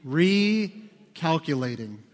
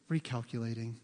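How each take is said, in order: First: Drawn-out sat-nav announcement; imitated GPS, very slow and measured. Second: Soft, low, soothing GPS voice; imitated calm little navigation voice; calm, endearing. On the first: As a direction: stretch it out slowly like a navigation system. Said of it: "That little voice says what?". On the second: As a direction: say it gently, as if forgiving a mistake. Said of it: "In a very calm, almost endearing voice".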